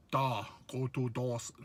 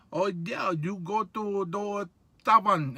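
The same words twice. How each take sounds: First: Lower, softer, a hint of a Russian accent; clumsy stab at a Russian accent; mock Russian accent. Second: Said in the usual way. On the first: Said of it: "like a Ru". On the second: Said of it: "it didn't sound like that".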